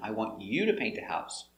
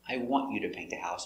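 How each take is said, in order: First: The word you carries strong stress. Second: The word want carries the stress. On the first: The emphasis is on the person. "it is stressed if you're putting emphasis on the person" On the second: The person is not emphasized. "if there's no stress on the person"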